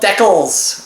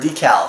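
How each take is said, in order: First: It is said with a Canadian pronunciation. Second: It is said with a non-Canadian pronunciation.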